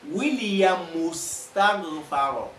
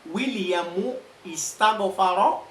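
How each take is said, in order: First: Williamu runs straight into istaghfara without a stop. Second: A glottal stop is pronounced before istaghfara. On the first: The speaker calls it right. "the hamza ... is dropped and not pronounced" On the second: The speaker calls it wrong. "No, that would be wrong"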